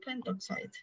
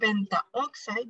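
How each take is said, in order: First: No vowel is said before 'oxide'. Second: An 'a' vowel is said before 'oxide'. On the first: The speaker calls it right. "drop the a" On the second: The speaker calls it wrong. "instead of saying pentaoxide"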